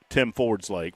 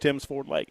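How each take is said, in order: First: The s sound comes at the end of Ford. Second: The s sound comes at the end of Tim. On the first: The speaker calls it wrong. "I just called it uh, Tim Ford's Lake for about an hour and a half" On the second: The speaker calls it right. "And now I got it. It's"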